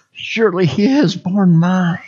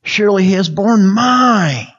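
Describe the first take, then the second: First: Said in the usual way. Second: "mine" stretched long with a swell, then falling; stress on mine. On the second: Shown as a demonstration. Preacher personalizing the verse, leaning long on "mine". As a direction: build to "mine" and hold it. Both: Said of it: "I'll emphasize and think on each".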